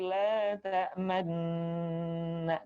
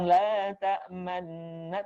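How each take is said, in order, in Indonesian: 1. Diucapkan dengan petunjuk vokal membulat yang singkat. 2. Diucapkan datar, tanpa petunjuk vokal membulat. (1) "tapi; bibirnya dimonyongkan"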